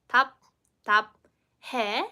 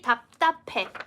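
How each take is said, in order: First: The final syllable begins with a separate h sound. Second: The final syllable begins with an aspirated p sound. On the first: The speaker calls it wrong. "If you can read the Hangul, you might pronounce it as" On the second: The speaker calls it right. "you need to change the pronunciation into p, p sound"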